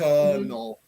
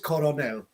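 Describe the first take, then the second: First: It is said in two syllables, like kernel. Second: It is said in three syllables, co-ro-nel. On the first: The speaker calls it right. "it would be pronounced colonel" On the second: The speaker calls it wrong. "the pronunciation which I hear from a lot of my Spanish friends"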